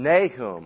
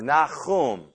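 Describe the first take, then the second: First: Nahum said NAY-hum, the English way; English pronunciation. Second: Nahum said nah-KHOOM, with a throaty kh; Hebrew pronunciation. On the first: Bible teacher naming the prophet, English pronunciation. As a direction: say Nahum with a long "ay" and a plain h. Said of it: "In English, it's Nahum". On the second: Bible teacher offering the prophet's original name, Hebrew pronunciation. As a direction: give Nahum its Hebrew "ah" and rasped h. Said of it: "that's how his name is pronounced in Hebrew". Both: Shown as a demonstration.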